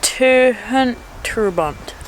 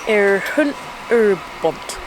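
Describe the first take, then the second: First: Terhunt Urbont repeated slowly and a little louder in a mock Welsh accent; repeated Welsh attempt. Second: Put-on Erhunt Urbont sounded out slowly in a hesitant try at a Welsh accent; slow attempt at Welsh. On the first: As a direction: say Terhunt Urbont again, slower, with a put-on Welsh sound. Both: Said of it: "that's not really a Welsh accent, is it, that I'm doing".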